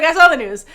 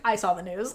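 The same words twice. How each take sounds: First: Loud, punched mock shutdown; blunt non-engagement. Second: Low-key, softer shutdown; disengaged reply. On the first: Little Nung refusing to engage, retold as a loud blunt reply. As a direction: cut the small talk off loudly. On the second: Retold or imitated. Little Nung refusing Big Nung's small talk, disengaged. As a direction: shut the small talk down quietly. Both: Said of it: "does not engage".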